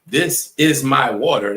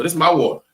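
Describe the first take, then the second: First: "is" fully pronounced, slow and deliberate; standard English. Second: "is" dropped, "This is" run together as one syllable; higher and casual, swallow "is" and punch "my"; everyday vernacular. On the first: Demonstrating textbook English to the class, slow and carefully separated words. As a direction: say every word of "This is my water" separately, slowly. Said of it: "that's how I would say that in English". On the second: Showing the class how we speak, casual with "is" left out. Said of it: "There's no is in it". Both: Shown as a demonstration.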